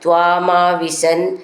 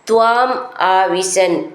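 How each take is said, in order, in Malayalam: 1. ഈ രണ്ടു വാക്കുകളും ചേർത്ത് ഒന്നായിട്ടാണ് പറയുന്നത്. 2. ഈ രണ്ടു വാക്കുകളും വേർതിരിച്ച് രണ്ടു വാക്കുകളായിട്ടാണ് പറയുന്നത്.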